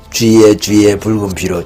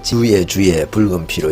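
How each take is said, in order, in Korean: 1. 주의는 한 음절로 줄여서 발음하며, 쥐처럼 들립니다. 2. 주의는 분명한 두 음절로 발음합니다.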